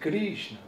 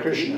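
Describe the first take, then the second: First: It is said with a Russian accent. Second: It is said with an American accent. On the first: This is how the audience says it. "when you say, you say Krishna" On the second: This is how the speaker says it. "I say Hare Krishna"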